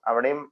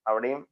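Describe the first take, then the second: Both takes have the same delivery.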